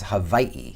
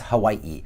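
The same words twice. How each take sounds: First: It has a V sound and a separate final vowel. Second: It has a W sound and a separate final vowel. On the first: "It's pronounced with a V" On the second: "there's two I's, so it's Hawaii"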